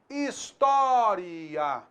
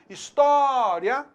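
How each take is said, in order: First: The final vowels are split into two syllables. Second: The final vowels are joined in one syllable. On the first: "pronunciando um pouco mais aprofundadamente esse encontro vocálico final" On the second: "no lugar de história"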